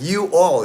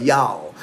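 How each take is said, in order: First: You all said as two full words; you all, uncontracted; two separate words. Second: Y'all run into one syllable; y'all, you and all merged; Texas contraction. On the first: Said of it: "it's like y'all". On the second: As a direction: say y'all as one Texan word. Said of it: "I lived in Texas". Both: Shown as a demonstration.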